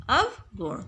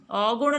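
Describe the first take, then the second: First: अवगुण as "av-gun", with clear "v"; correct pronunciation. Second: अवगुण as "augun"; wrong pronunciation. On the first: Teacher answering with the right word, अवगुण said "av-gun". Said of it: "इसका शुद्ध शब्द क्या है". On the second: Teacher showing pupils the mistake, अवगुण said "augun". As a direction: merge the start of अवगुण into "au". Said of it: "अवगुण नहीं बोलते हैं". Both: Shown as a demonstration.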